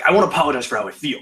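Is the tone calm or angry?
angry. It is said in an angry tone.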